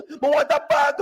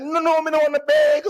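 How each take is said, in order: First: High, "bag" with a broad Jamaican "ah"; "bag" with open A. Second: High twang, "bag" said with an E like "beg". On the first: Customer insisting on his own word, "bag" with open A. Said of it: "suddenly start to twang". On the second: Customer rejecting clerk's word, "bag" twanged as "beg". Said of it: "I began to twang". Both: Retold or imitated.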